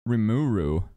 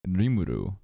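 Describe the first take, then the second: First: The name is said with English pronunciation. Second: The name is said with Japanese pronunciation. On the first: The speaker calls it wrong. "like the Western folks say" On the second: The speaker calls it right. "the way the anime characters say it"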